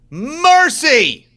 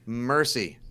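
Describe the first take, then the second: First: A loud cry of amazement at the photo; exclaimed shout. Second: Said in the usual way. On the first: Real, not acted. Stunned by the photo.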